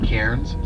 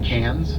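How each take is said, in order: First: The R sound is pronounced. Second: The R sound is dropped. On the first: This is how outsiders say it. The speaker calls it wrong. "not Cairns" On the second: This is how local people say it. The speaker calls it right. "Take the R out"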